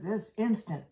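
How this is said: It is said fiercely and demandingly. Come here immediately. "my mother used to say that rather ferociously"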